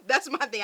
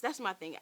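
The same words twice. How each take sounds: First: Louder, laughing through it. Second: Said in the usual way. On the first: Real, not acted. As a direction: chuckle while saying it. Repeats it with a laugh.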